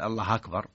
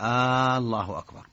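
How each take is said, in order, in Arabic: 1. الراء الأخيرة فيها فتحة زائدة. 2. الحركة الأولى تُمَدّ كأنها سؤال. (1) "فتح هذه سهل" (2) "هذه استفهام، كأنه يسأل"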